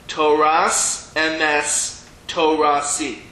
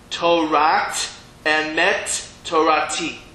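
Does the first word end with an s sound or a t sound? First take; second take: s sound; t sound. First: The first word ends with an s sound. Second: The first word ends with a t sound. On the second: "if we'd be learning it Sephard, ... this is how line six would sound"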